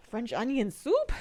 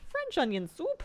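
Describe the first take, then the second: First: Drawn-out, wondering French onion soup?; slow musing question. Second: "French onion soup?" jumps up high in delight; excited question. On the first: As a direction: read "French onion soup?" slowly, half to yourself. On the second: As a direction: pitch "French onion soup?" high with a bright rising end. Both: Shown as a demonstration.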